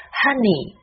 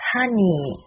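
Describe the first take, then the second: First: "Honey" as HUH-nee, short first vowel, falling; correct honey. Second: "honey" as HAH-neee, open and drawn out; mispronounced honey. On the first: Teacher applying the same rule, "Honey" with short UH. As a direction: model "Honey" compactly with a tight UH. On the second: Teacher showing what not to say, "honey" opened up and dragged. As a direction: stretch "honey" with a too-open AH. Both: Shown as a demonstration. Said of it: "不要念成honey".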